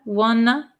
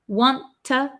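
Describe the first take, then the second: First: The t sounds are dropped, ending in uh. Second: Both t sounds are clearly pronounced. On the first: "when we get rid of the T sound, it becomes a" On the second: "want to is contracted to wanna"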